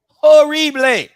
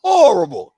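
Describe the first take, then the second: First: Horrible stretched slow, higher and louder; drawn-out disgust. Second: Said in the usual way. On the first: Real, not acted.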